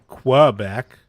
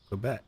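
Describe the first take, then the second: First: The first syllable has a W sound. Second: The first syllable has no W sound. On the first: The speaker calls it wrong. "I'm not saying Quebec" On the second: The speaker calls it right. "I didn't say there was a W sound"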